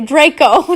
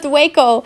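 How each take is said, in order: First: The word is said with a clear r sound. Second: The r is replaced by a w sound. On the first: The speaker calls it right. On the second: The speaker calls it wrong.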